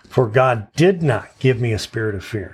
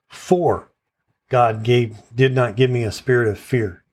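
First: The stress is on "did". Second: The stress is on "For".

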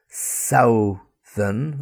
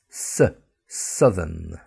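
First: The first vowel sounds like ow. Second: The first vowel sounds like cup. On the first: The speaker calls it wrong. "It's not southern" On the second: The speaker calls it right. "So the U sound, is like in k, cup"

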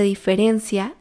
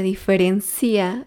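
First: The stress falls on the syllable 'ren'. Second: The stress falls on the syllable 'ci'. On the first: The speaker calls it right. "Lo correcto es decir" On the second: The speaker calls it wrong. "pronunciados mal"

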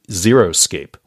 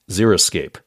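First: The first part sounds like the number zero. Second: The first part does not sound like zero. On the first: The speaker calls it wrong. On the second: The speaker calls it right.

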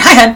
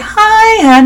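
First: The greeting is short and clipped. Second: The greeting is long, drawn out and warm.

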